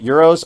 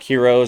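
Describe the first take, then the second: First: The word starts with a y sound. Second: The word starts with an h sound. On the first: The speaker calls it right. "My dad corrected me" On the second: The speaker calls it wrong. "for the longest time I used to call it like heroes"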